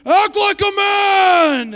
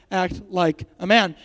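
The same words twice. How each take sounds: First: High, very loud, drawn-out bellow; mock movie shout. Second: Said in the usual way. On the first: Shown as a demonstration. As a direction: yell it slowly, hammed up. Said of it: "But you can be like".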